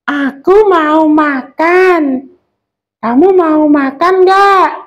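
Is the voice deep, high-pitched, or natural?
high-pitched. The voice is squeaky and high-pitched. A small character, such as a child, is speaking. "suara kecil itu kita melengkingkan suara kita"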